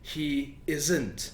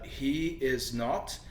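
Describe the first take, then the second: First: The last two words join into one word. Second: All three words are said in full.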